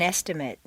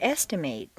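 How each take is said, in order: First: The last syllable has a weak reduced vowel. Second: The last syllable has a full 'ay' vowel. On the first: It is used as a noun or adjective. "completely reduced to mt" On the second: It is used as a verb. "a full a sound"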